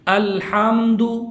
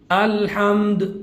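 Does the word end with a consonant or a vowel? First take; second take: vowel; consonant. First: The word ends with a short u vowel. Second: The word ends on a bare consonant. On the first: The reading continues without a stop. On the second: The reader stops on this word.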